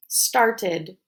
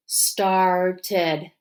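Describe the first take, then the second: First: Said in the usual way. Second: "Started" drawn out as star, ted; tapped syllables. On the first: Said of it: "in the word started". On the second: Shown as a demonstration. Teacher tapping together with pupils, "Started" said syllable by syllable. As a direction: split "Started" into two separate beats. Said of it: "Let's tap together".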